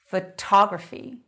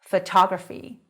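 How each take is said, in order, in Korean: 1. 강세는 두 번째 음절에 있어요. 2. 강세는 두 번째 음절에 있어요.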